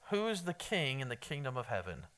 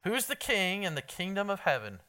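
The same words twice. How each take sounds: First: Asked softly, low and unforced; quiet question. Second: Repeated louder. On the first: Preacher quietly quizzing the congregation, soft. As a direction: toss the question out gently to the crowd. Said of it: "Oh, I thought it was a softball". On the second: Preacher repeating his question to a silent room, louder. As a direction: push the question harder the second time. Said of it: "Anybody know?". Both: Real, not acted.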